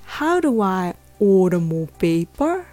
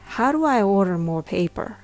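First: The R in order is dropped, pitch falls there. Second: The R in order is clearly pronounced, American-style. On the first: "ちょっとイギリス英語っぽいのでR の音が消えています" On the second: "アメリカ英語で言うと"

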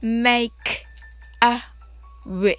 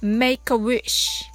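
First: It is said slowly. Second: It is said fast.

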